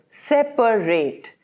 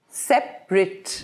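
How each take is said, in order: First: The word is said with three syllables. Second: The word is said with two syllables. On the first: It is an action word. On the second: It describes a thing as apart.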